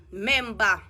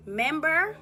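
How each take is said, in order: First: "member" said the patois way as "memba", open a at the end, no r. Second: "member" said the English way as "membər", with an r-coloured end; standard English member. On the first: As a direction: drop the r: "member" ends on a short open "a" like "memba". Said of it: "Jamaican alone say member". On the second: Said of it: "If we are go standard English now". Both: Shown as a demonstration.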